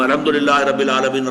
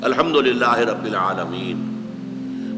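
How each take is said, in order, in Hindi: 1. इसे जल्दी, बिना रुके एक साथ पढ़ा जाता है। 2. इसे धीरे, रुक-रुक कर पढ़ा जाता है। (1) "वो भी एक साथ में पढ़ जाएंगे" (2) "रुक रुक कर पढ़े"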